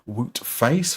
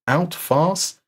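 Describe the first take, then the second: First: The first name sounds like 'woot'. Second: The first name sounds like 'out'. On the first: The speaker calls it wrong. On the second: The speaker calls it right.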